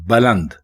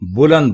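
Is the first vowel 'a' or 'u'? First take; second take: a; u. First: The first vowel is 'a', as in baland. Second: The first vowel is 'u', as in buland. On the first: The speaker calls it right. "बे के ऊपर जबर है और लाम के ऊपर भी जबर है" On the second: The speaker calls it wrong. "बे के ऊपर पेश नहीं है"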